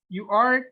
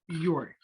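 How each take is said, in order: First: It is said as two full words. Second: It is said as one contracted syllable. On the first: "that's the contraction of you are" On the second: "the contraction"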